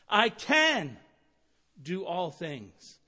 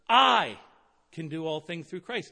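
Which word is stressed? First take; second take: can; I. First: The stress is on the word can. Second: The stress is on the word I.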